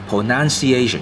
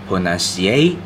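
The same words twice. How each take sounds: First: Every syllable is stressed about equally. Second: The main stress falls on the fourth syllable. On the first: The speaker calls it wrong. "將佢全部啲重音pronunciation 咁就錯啦" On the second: The speaker calls it right. "主要重音咧就喺個A 嗰度"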